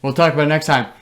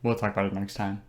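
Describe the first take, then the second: First: Higher, firm cut-off; insistent brush-off. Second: Low, soft deferral; low-key brush-off. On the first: Host cutting off the cohost's guess, insistent brush-off. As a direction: talk over them to close the subject. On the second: Host putting off the cohost's actor question, low-key brush-off. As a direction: drop it quietly and move along. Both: Real, not acted.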